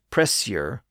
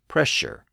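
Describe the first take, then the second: First: The middle consonant is an s-like sound. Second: The middle consonant is a sh sound. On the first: This is the older pronunciation. "pressure became pressure" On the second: This is the later pronunciation. "pressure became pressure"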